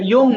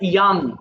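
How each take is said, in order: First: The vowel sounds like 'oh'. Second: The vowel sounds like 'ah'. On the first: The speaker calls it wrong. "এটা ইয়ং না" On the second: The speaker calls it right. "উচ্চারণটা হবে ইয়াং"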